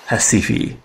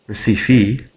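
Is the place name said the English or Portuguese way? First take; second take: Portuguese; English. First: The name is said with Portuguese pronunciation. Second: The name is said with English pronunciation. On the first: "the native Portuguese, is Recife" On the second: "the English pronunciation is apparently Recife"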